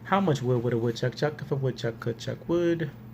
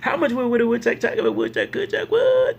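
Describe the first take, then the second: First: It is said at a slow pace. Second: It is said at the fastest pace. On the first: "I'm going to say it three times" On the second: "We're going to speed it up"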